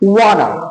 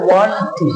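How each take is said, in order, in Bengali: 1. শব্দ দুটি মিশে একটি ছোট, সংক্ষিপ্ত শব্দ হয়ে যায়। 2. দুটো শব্দই পুরোপুরি আলাদাভাবে বলা হয়।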